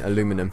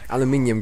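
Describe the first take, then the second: First: It is said with four syllables, American style. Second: It is said with five syllables, British style. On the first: The speaker calls it wrong. "these American pronunciations" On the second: The speaker calls it right. "Aluminium, guys, come on, behave yourselves"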